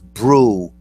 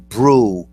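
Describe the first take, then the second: First: The syllable is said with an R sound. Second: The syllable is said with an R sound.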